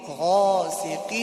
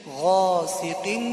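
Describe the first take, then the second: The two takes are said the same way.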